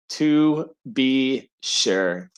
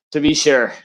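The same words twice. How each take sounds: First: Very slow, word by word; drawn out. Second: Said in the usual way. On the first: Shown as a demonstration. Host underlining his infantry joke, deliberately drawn out. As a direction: stretch out each word with pauses. Repeats phrase slowly for emphasis.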